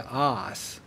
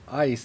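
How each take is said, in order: First: The vowel is flattened, sounding like 'ah'. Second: The vowel is a full glide, like 'eye'. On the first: "Texans, you know, they say ass" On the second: "they don't say ice"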